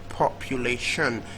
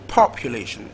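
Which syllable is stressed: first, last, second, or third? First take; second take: last; first. First: The stress is on the last syllable. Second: The stress is on the first syllable. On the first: "last syllable" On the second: "First syllable"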